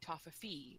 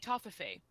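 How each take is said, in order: First: The word ends with a 'fee' sound. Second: The word ends with a 'fay' sound. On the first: This is how most people in the States would say it. "most people would probably say Toffefe over there" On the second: This is how the speaker says it at home. "and I say Toffefe"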